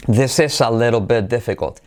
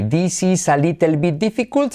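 First: This is a little bit difficult as thes es a leddo bet deffecot; this is a little bit difficult, i's as e. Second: This is a little bit difficult with every i said as ee; This is a little bit difficult, clear ee vowels; Spanish i's. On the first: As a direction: turn every i into e. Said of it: "se convierte en". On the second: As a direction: read it like Spanish, dees ees. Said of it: "Fíjate cuántas is hay". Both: Shown as a demonstration.

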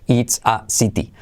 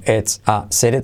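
First: "it's a city" word by word as "its a siti"; unlinked, hard T. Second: "it's a city" as "ets a sere"; linked, soft R. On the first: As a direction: separate each word, clear I and T in "city". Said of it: "No puedes decir". ("it's a city" separado, como "its a siti") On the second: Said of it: "todo junto". ("it's a city" como "ets a sere") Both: Shown as a demonstration.

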